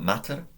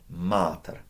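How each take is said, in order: First: The first vowel is short. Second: The first vowel is long. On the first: The speaker calls it wrong. "Not matter" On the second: The speaker calls it right. "Long A. ... A little longer"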